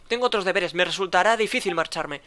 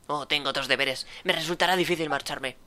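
First: Said in the usual way. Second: Mocking imitation. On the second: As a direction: mimic his words back with scorn. Solid mocks the officer's excuse.

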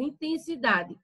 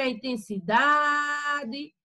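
First: Said in the usual way. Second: "intensidade" with a long, held "da"; stressed syllable. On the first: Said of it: "Se eu quiser falar aqui a palavra". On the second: Shown as a demonstration. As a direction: stretch the "da" in "intensidade" to show the stress. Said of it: "mas o da, ela tem aí mais intensidade".

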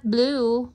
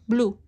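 First: Said in the usual way. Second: Blue with a Filipino accent, short and open. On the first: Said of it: "Not blue". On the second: Shown as a demonstration. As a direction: say Blue the Filipino way, firm and loud. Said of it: "You gotta say it in Filipino accent".

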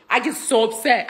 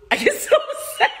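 First: Said in the usual way. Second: Squeaky high laughing cry of upset; laughing mock upset. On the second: Shown as a demonstration. Telling the crowd how upset she gets, high and laughing. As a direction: pitch it way up, laughing through it. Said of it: "My temper's nuts".

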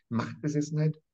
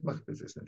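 First: Said in the usual way. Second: Machtbesessenheit whispered, breath only, much softer; fading to a whisper. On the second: Shown as a demonstration. Professor hammers home the word, then whispers it. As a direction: let Machtbesessenheit die away into a whisper.

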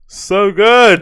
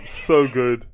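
First: "So good!" louder and higher, relishing; delighted exclaim. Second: Said in the usual way. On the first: Real, not acted. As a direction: punch "good" with glee. Savoring the clip.

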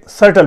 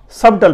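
First: "سٹل" with a silent b; correct pronunciation. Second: "سبٹل" with the b sounded before the t; wrong pronunciation. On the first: Teacher giving learners the proper reading, correct pronunciation. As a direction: say "سٹل", going straight from s-vowel to t. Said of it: "اسے سٹل پڑھتے ہیں". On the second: Teacher quoting the common misreading to learners, wrong pronunciation. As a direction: say "سبٹل", voicing the b. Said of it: "لیکن یہ سبٹل نہیں ہے". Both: Shown as a demonstration.

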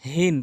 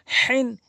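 First: হিন with a light h from the start of the throat; small ha. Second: হিন with a strong h squeezed in mid-throat; slow হিন, rasped h from the middle throat; mid-throat big ha. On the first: Teacher drills the difference, light h in হিন. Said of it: "ছোট হা হচ্ছে হলকের শুরু থেকে". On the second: Teacher drills the difference, throaty h in হিন. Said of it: "বড় হাটি হলকের মাঝখান থেকে". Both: Shown as a demonstration.

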